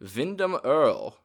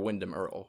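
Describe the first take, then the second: First: The name is said in a German accent. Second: The name is said in a plain English accent.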